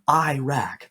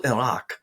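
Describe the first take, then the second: First: The first vowel sounds like 'eye'. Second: The first vowel sounds like 'ih'. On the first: The speaker calls it wrong. "E Y E hyphen R A C K... That's not how you pronounce it" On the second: The speaker calls it right. "it's called Al Iraq"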